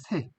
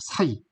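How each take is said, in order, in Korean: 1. 이 낱말은 모음 소리가 하나예요. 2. 이 낱말은 모음이 이 소리 쪽으로 미끄러져요. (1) "새라는 말 있죠" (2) "사이 이렇게 발음했겠죠"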